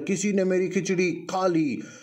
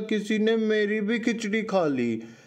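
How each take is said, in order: First: A deep, gruff Papa Bear voice. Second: A small, thin Baby Bear voice.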